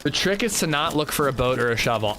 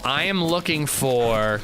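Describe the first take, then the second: First: Said in the usual way. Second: "a schmote and a bubble" said as a playful tongue slip; deliberate mix-up. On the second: Shown as a demonstration. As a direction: swap the sounds so "schmote" and "bubble" replace "boat" and "shovel".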